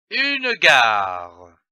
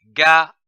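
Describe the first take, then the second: First: Said in the usual way. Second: "gare" split as ga, pause, re; syllable by syllable. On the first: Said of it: "donne le mot". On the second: Shown as a demonstration. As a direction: sound out "gare" in two separate syllables, ga / re. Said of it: "L'association de ces deux syllabes".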